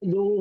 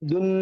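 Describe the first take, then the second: First: The n is hidden in a nasal, lengthened vowel. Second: The syllable ends with a clear n sound. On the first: The speaker calls it right. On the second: The speaker calls it wrong. "ദുൻ എന്ന് പറയാതെ"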